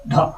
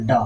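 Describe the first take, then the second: First: ᱰᱷᱚ with a puff of breath after the d; letter-sound demo of aspirated ᱰᱷᱚ; aspirated retroflex. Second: ᱰᱚ with no puff of breath; letter-sound demo of unaspirated ᱰᱚ; unaspirated retroflex. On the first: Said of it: "ᱚᱱᱟ ᱰᱚ ᱢᱮᱥᱟ ᱠᱟᱛᱮ". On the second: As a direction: say ᱰᱚ as a plain retroflex d plus o. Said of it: "ᱱᱚᱣᱟ ᱨᱮᱭᱟᱜ ᱩᱪᱪᱟᱨᱚᱱ ᱱᱚᱣᱟ". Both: Shown as a demonstration.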